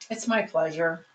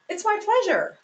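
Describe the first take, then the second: First: It is said in a flat, unenthusiastic tone. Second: It is said in a warm, sincere tone. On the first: The words do not match the feeling behind them. The speaker calls it wrong. "I could convey something extremely differently" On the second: The words match a genuine willingness to help. The speaker calls it right. "how I would like to see those words said"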